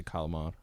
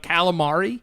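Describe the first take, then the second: First: Calamari as "cah-la-mahd", last vowel dropped; dialect calamari. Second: Calamari with "cal" as in "pal", questioning; Americanized calamari. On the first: Telling a friend how they say it, Italian-American calamari. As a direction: clip the final i off calamari, open "cah". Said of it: "I just say calamari". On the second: Doubting the American way to a friend, flat-a calamari. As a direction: say calamari in full with a flat first a. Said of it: "I don't say calamari". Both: Shown as a demonstration.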